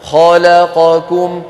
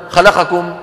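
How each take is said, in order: First: خلقكم slow with its four vowels held equally; even vowels. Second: خلقكم clipped fast, the vowels snatched; rushed vowels. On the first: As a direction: pace each syllable of خلقكم. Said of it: "لابد أن تكون أزمنتها متساوية". (أزمنة متساوية في خلقكم) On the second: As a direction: hurry through خلقكم. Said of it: "ولا نقول مثلا". (خطف الحركات في خلقكم) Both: Shown as a demonstration.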